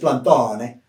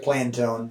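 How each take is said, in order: First: The name is pronounced the Italian way. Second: The name is pronounced the American way. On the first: This is how it is said in Italy. "if you go to Italy, it's Plantone" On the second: This is how it is said in the United States. "But over here is Plantone"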